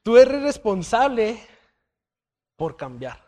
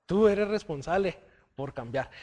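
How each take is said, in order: First: Slow, loud, emphatic "Tú eres responsable"; emphatic declaration. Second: Said in the usual way. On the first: Shown as a demonstration. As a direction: punch "responsable" hard and slow, then let the rest fall. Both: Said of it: "Ahí va".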